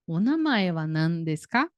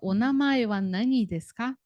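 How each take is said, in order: First: The question word is shortened to one syllable. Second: The question word is said with two syllables. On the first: The speaker calls it right. "a gente só fala" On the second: The speaker calls it wrong. "a gente não fala"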